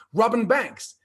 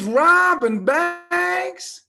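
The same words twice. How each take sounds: First: Said in the usual way. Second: Very slow, high Southern drawl; hammed-up Southern drawl, pitched way up; bad southern drawl. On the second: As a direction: stretch it out in incredulous Arkansas drawl. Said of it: "Excuse my bad southern drawl".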